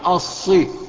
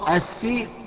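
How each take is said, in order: First: The s sound is heavy and emphatic. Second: The s sound is plain and light. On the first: The speaker calls it right. "لا ما ينفعش الصي" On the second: The speaker calls it wrong. "بعض الإخوة هو بيقرأ بيقول القاف اهدنا الصراط السي"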